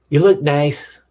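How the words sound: The tone is curt and annoyed. The speaker does not want to be bothered. "That's like from the bad wolf, don't bother me"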